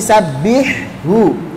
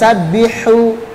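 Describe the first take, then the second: First: The h sound is distinct and clear. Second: The h sound is weak and unclear. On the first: The speaker calls it right. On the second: The speaker calls it wrong.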